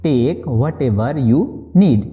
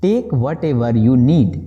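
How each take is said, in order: First: Slow restatement before explaining; slow repeat. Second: Very slow, word by word; slow model sentence. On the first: Teacher repeating the phrase slowly before translating. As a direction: say it again slowly. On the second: Teacher modelling the English phrase slowly for students. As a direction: spell it out slowly for learners. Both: Shown as a demonstration. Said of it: "बोलेंगे".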